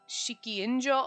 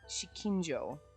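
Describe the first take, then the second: First: The second vowel is drawn out long. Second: The second vowel is kept short. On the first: The speaker calls it wrong. "I want to add an extra I in there" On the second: The speaker calls it right. "I have to stop and be like"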